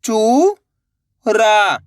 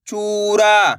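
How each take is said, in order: First: चू, long pause, रा; चूरा split slowly, rising then falling; syllable by syllable. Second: चूरा joined, long vowels; blended word. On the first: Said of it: "एक अक्षर का उच्चारण करना है". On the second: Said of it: "तो मिलके बन जाएगा". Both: Shown as a demonstration.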